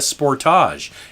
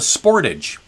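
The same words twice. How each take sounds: First: It is pronounced the Canadian way. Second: It is pronounced the American way. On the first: "we're in Canada. This is called a Kia Sportage" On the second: "In America, it's called a Sportage"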